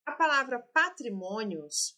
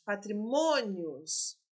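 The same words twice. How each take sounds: First: Said in the usual way. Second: Patrimônios stretched out syllable by syllable; slow, deliberate repeat. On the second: Shown as a demonstration. Teacher stressing patrimônios for exam students, slowly. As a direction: lay out patrimônios slowly so students hear each part. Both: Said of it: "teacher repeats the word for students".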